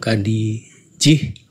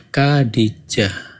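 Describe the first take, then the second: First: The final syllable has the vowel i. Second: The final syllable has the vowel a. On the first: The speaker calls it wrong. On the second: The speaker calls it right. "persis ya"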